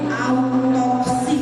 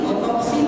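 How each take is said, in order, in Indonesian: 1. Kata itu diawali dengan bunyi au. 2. Kata itu diawali dengan bunyi o biasa. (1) "yang baru" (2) "tidak baru"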